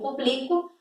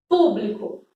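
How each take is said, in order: First: The stress is on the second syllable. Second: The stress is on the first syllable. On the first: It is a verb form meaning I publish. "verbo público" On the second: It is a noun meaning public or audience. "para um substantivo, público ... proparoxítona"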